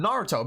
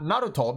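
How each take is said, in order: First: NARUTO said with an English R and "toe" ending; anglicised Naruto; English pronunciation. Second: NARUTO with a tapped R and pure vowels; Japanese-accented Naruto; Japanese pronunciation. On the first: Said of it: "because we're speaking in English". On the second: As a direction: switch to Japanese sounds for Naruto, "nah-roo-toh". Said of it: "and not Naruto". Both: Shown as a demonstration.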